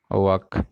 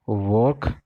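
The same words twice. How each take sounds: First: वर्क as "wahk", no r; वर्क without r, not rising; walk in contrast. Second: वर्क with sounded r, rising tune; वर्क like "vork", ending up; work in contrast. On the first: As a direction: say वर्क like walk, open vowel. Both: Shown as a demonstration. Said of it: "इस difference को थोड़ा समझो".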